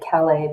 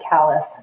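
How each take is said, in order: First: It is said the French way. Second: It is said the local Vermont way.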